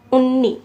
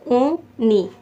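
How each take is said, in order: First: Said in the usual way. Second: उन्नी split into two syllables, un, ni; teacher breaking up उन्नी for learners. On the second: Shown as a demonstration. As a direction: pause between the halves of उन्नी. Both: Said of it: "टू syllable बन रही है".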